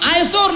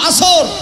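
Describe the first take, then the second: First: A 'ye' glide follows the first vowel. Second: No glide follows the first vowel. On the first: The speaker calls it wrong. "আয়েসর না" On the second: The speaker calls it right. "না আসর"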